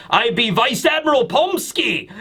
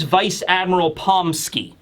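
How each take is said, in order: First: Higher, singsong mock Russian accent. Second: Said in the usual way. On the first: Recapper introduces Vice Admiral Pomsky, mock Russian accent. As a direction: put on a playful Russian accent. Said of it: "I'm assuming it's with a Russian accent".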